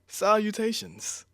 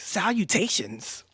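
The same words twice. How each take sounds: First: It is said in the speaker's natural voice. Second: It is said in a put-on witch voice.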